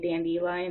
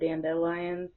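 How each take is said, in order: First: The word is said in a cute variant pronunciation. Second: The word is said in its standard pronunciation. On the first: "It sounds more cute to say dandelion" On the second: "instead of dandelion"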